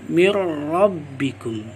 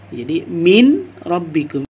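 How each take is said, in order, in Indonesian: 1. Bunyi n melebur penuh ke dalam bunyi r. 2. Bunyi n dibaca terpisah sebelum r. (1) "nun mati ini dimasukkan ke dalam huruf ra" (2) "kita memisahkan antara bacaan nun mati atau nun sukun dengan bacaan ra"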